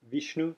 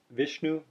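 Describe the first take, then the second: First: "Vishnu" with a clipped ee, softly; Vishnu with ee sound. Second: "Vishnu" with the short i of pin. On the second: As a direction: say "Vishnu" with the lax i. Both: Shown as a demonstration. Teacher contrasting the two vowel sounds. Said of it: "you hear the difference".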